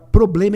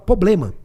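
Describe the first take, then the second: First: The R after the first P is pronounced. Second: The R after the first P is dropped. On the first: The speaker calls it right. "em vez de falar problema" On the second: The speaker calls it wrong. "Ele tira o R ali"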